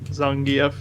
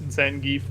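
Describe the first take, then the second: First: The name is pronounced the Russian way. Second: The name is pronounced the English way. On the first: "how you would say it if you were Russian" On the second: "like the English pronunciation"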